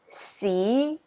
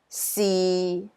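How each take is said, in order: First: It is said with Cantonese tone two. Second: It is said with Cantonese tone six.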